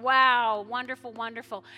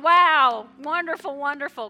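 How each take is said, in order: First: Loud, delighted cry of wonder; heaven's joy. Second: Shouted, higher cry of wonder; pastor's joy. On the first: Pastor voicing heaven celebrating a new believer, loud and delighted. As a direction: voice heaven rejoicing. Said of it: "heaven is just going". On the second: Pastor shouting his own joy over the returning, louder and higher. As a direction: let it burst out with delight. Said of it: "I'm going". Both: Retold or imitated.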